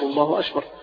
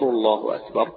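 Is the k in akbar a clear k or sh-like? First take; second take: sh-like; clear k. First: The k is breathy and sounds like sh. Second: The k is a clear, crisp k sound. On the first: The speaker calls it wrong. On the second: The speaker calls it right.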